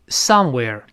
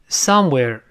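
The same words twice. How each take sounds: The two takes are said the same way.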